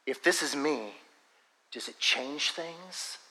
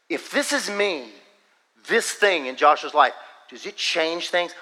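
First: Quiet, slow, gently spaced question; soft divine word. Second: Emphatic divine word. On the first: Preacher retelling the Lord's word to him, softly and slowly. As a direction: let it fall softly, like a private word. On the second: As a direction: press the question home phrase by phrase. Repeats the word with more force. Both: Retold or imitated.

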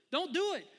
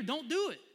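First: Higher, louder repeat, near a yell; voicing God, louder. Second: Loud warning, first time; voicing God. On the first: God warning a child again, higher and near yelling. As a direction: push the warning harder the second time. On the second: God warning a child off the road, loud and urgent. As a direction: call it out firmly. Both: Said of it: "And God's like".

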